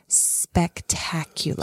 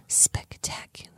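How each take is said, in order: First: It is spoken aloud, slowly. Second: It is whispered.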